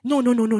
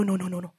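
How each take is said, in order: First: Said in the usual way. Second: Much lower, softer repeated no; soft echo. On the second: Real, not acted. Preacher quietly repeating the denial to the church, much softer. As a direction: drop the voice to a near murmur.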